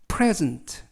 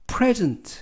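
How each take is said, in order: First: The stress is on the first syllable. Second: The stress is on the first syllable.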